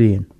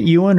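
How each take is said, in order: First: The name sounds like 'Ian', starting with 'ee'. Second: The name sounds like 'Ewan', starting with 'you'. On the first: The speaker calls it wrong. "every time I try to say it, it sounds like Ian" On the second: The speaker calls it right. "Is it Ewan or is it Ian?"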